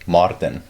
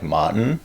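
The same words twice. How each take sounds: First: It has a strong South African R. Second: It has a soft, weak R.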